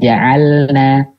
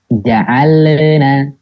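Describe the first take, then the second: First: The L flows smoothly and clearly into the N. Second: An extra bouncing sound comes between L and N. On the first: The speaker calls it right. "Harusnya dibacanya jelas selamnya" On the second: The speaker calls it wrong. "Jadinya terdengar mantul"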